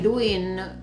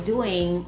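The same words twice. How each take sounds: First: The final g sound is dropped. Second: The final g sound is pronounced. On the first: It is casual spoken usage. "why they're saying" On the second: It is the standard form. "rather than"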